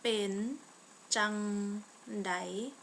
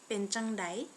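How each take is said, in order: First: The phrase is said slowly and carefully. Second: The phrase is said at a normal speed.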